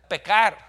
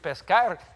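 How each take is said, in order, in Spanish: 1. La s antes de la c se omite por completo. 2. La s antes de la c se pronuncia claramente. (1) "dicen pecar, comen la S" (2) "en vez de decir pescar"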